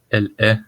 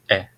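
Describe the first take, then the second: First: It is said in full with both words. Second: It is reduced to one syllable, like est. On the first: "elle est devient" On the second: "ou est"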